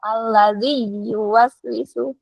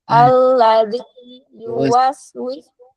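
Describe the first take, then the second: First: The i runs into an added y sound. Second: The i is completed, then yu starts separately. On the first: The speaker calls it wrong. "jangan sampai" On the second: The speaker calls it right.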